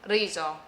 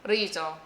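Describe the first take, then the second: Both takes have the same delivery.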